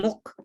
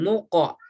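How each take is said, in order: First: The q sound is light like a k. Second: The q sound is heavy and deep. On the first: The speaker calls it wrong. "bukan muk" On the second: The speaker calls it right. "Qaf terbaca tebal"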